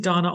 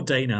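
First: Dana with "ah" in the first syllable; first pronunciation option. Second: Dana with "ay" in the first syllable; second pronunciation option. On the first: Host checking his guest's name, Dana said as DAH-nuh. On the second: Host offering the guest an alternative, Dana said as DAY-nuh. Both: Shown as a demonstration. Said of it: "is it Dana or Dana".

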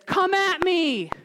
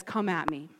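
First: High, drawn-out taunting challenge; taunting yell. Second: Low, soft "come at me"; quietly thrown-down dare; understated challenge. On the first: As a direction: call out "come at me" like a taunting warrior. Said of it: "in his taunting and yelling". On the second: Goliath's challenge retold, understated. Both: Retold or imitated.

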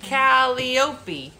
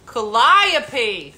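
First: "Calliope" as KAL-ee-OH-pee; mistaken pronunciation. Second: "Calliope" as kuh-LIE-uh-pee; correct pronunciation. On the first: Host attempting the word, "Calliope" sounded KAL-ee-OH-pee. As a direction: stress the front and OH in "Calliope". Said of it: "I'm not saying it right". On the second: Host finally getting it, "Calliope" said kuh-LIE-uh-pee. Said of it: "That's how you". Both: Real, not acted.

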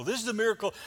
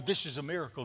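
First: Higher and louder, amazed. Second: Said in the usual way. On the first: Acted. Lepers seeing their healing, amazed. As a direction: marvel at the miracle.

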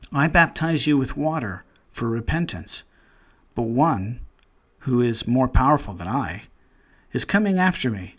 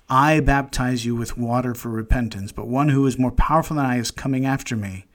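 First: Measured, solemn reading of John's words; scripture reading. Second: The same verse rattled off fast and casual; quick rereading. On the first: Acted. Preacher reads the Baptist's words aloud to the congregation, solemn and measured. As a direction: read it out as holy scripture, unhurried. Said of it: "we don't know anybody who talks like this". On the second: Shown as a demonstration. Preacher rereads the verse to his listeners, quicker and offhand. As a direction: run through it quickly, as if thinking aloud. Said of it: "we don't talk like this".

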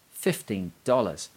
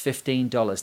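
First: "Fifteen dollars" drawn out slowly, each word set apart; "Fifteen ... dollars", slow and incredulous, with a falling end; exclaimed repeat. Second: Said in the usual way. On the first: A narrator's reading. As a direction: let "dollars" fall away after a slow, weighty "Fifteen". Narrator exclaims at the cost.

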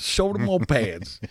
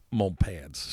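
First: "Shoulder mo pads" said slowly, pitched higher, with the extra "mo" stretched out; deliberate mispronunciation. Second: Said in the usual way. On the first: Shown as a demonstration. Joking to his co-host, slow mock-wrong "Shoulder mo pads". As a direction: drag out "Shoulder mo pads" on purpose, like a silly wrong word. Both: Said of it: "I gotta say it wrong if I'm gonna say it".

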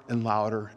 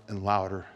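The two takes are said the same way.

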